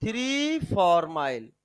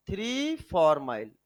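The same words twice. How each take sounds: First: Slow dictation. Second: three फार्माइल repeated a bit slower, falling; dictation repeat. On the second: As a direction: repeat the name for students to copy. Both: Shown as a demonstration. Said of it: "लिखो बेटा".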